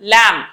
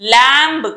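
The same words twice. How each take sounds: First: The word ends without a b sound. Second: The word ends with an audible b. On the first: The speaker calls it right. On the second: The speaker calls it wrong.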